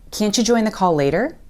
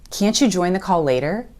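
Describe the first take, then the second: First: The t and y blend into a ch sound. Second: The t and y blend into a ch sound.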